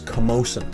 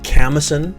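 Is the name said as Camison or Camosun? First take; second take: Camosun; Camison. First: The name is said as Camosun. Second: The name is said as Camison. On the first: This is the accepted local pronunciation. The speaker calls it right. "it is Camosun" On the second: This is a common mispronunciation. The speaker calls it wrong. "I've heard this as Camison"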